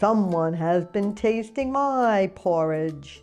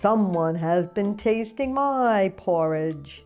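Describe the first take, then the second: First: It is said in a great big voice. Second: It is said in a great big voice.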